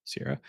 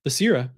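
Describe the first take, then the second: First: Said in the usual way. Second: "Basira" said louder, stressed as the correction; emphatic correction. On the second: Real, not acted. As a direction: snap to the right name, "Basira", with emphasis. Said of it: "I mean, Sierra".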